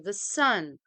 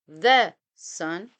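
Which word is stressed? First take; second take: sun; the. First: The stress falls on the word 'sun'. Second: The stress falls on the word 'the'. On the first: The speaker calls it right. "we say the sun. So the emphasized, the strong, the stressed is sun" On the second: The speaker calls it wrong. "We don't say the sun"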